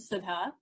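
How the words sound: The name is said with an Indian pronunciation. "as my my mom or Nani would pronounce my name"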